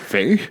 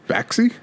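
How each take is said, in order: First: The name ends on a vowel with no ks. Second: The name ends with ks plus an ee vowel. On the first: "Thought maybe it was the X was silent" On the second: "but with the E"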